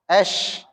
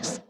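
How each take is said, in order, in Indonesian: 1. Kata itu berakhir dengan bunyi sh yang melebar. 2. Kata itu berakhir dengan bunyi s yang tajam. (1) "Dia susah ngucapin es" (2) "Jadi es"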